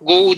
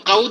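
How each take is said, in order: First: The first vowel is a rounded 'o' sound. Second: The first vowel is an open 'a' sound. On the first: "Göklünlük govu diyerler" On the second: This is the speaker's own local dialect form. "Biz kavu diyer"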